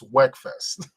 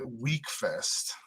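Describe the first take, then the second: First: The first vowel is a short 'e' sound. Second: The first vowel is a long 'ee' sound. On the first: The speaker calls it right. "It's W E K. So that leads me to believe it's Wegfest" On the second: The speaker calls it wrong. "It's not W E E K"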